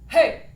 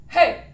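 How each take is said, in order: First: A strong, full chest voice at speaking pitch. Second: The same.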